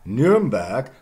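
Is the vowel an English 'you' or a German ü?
German ü. The first vowel is a rounded front ü. "Nuremberg becomes"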